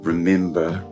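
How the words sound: The middle vowel sounds like the 'i' in pin. "they'll use an I sound and say"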